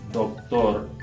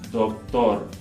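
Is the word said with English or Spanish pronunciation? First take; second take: Spanish; Spanish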